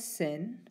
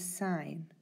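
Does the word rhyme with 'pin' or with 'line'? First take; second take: pin; line. First: The vowel is short, like in 'pin'. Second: The vowel is long, like in 'line'. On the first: The speaker calls it wrong. "don't pronounce this as sin" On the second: The speaker calls it right. "as it is sine"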